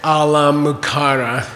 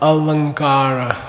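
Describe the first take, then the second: First: The nasal is a full m with closed lips. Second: The nasal is a soft sound through the nose. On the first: The speaker calls it wrong. "that's a mispronouncing" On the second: The speaker calls it right. "you have to use your nose"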